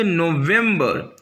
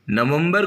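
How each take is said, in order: First: नवंबर drawn out slowly, "no-VEM-ber"; English pronunciation. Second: नवंबर quick, "na-vum-bar"; Hindi pronunciation. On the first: Teacher answers with the English month for learners, English pronunciation. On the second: Teacher asks what to call it in English, Hindi pronunciation. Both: Shown as a demonstration. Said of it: "नवंबर को क्या बोलेंगे".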